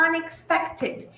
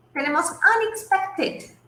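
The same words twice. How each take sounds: First: Unexpected, said slowly and softly; teacher repeating Unexpected slowly; slow model word. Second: Said in the usual way. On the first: Shown as a demonstration. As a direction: draw out Unexpected for learners. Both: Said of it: "Y el otro ejemplo es".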